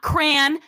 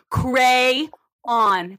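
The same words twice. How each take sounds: First: It is said as one syllable, like cran. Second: It is said as two syllables, cray-on. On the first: The speaker calls it wrong. "not crayon ... It is not C-R-A-N" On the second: The speaker calls it right. "crayon. That is how it is spelt"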